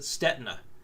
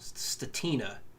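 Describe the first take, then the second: First: The first vowel sounds like the one in 'bet'. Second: The first vowel sounds like the one in 'cat'. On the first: This is how the speaker used to say it. "I always pronounced it Stetina" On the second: This is how someone in the industry says it. "he pronounces his last name Statina"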